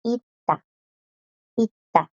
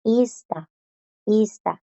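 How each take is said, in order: First: Ita with the s silent; pronunciación correcta; correct pronunciation. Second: Ista with the s sounded; pronunciación incorrecta; wrong pronunciation. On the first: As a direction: say ita, dropping the s. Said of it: "La pronunciación es". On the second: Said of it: "la pronunciación de esta no es". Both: Shown as a demonstration.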